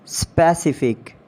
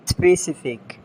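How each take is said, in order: First: "Specific" as SPESS-ih-fik; full E opening "Specific"; mispronounced specific. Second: "Specific" as spuh-SIF-ik; reduced first vowel in "Specific"; British pronunciation. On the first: Acted. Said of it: "you have to correct me". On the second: Shown as a demonstration. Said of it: "exact pronunciation according to the British".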